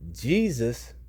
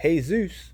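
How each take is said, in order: First: The name begins with a J sound. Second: The name begins with an H sound.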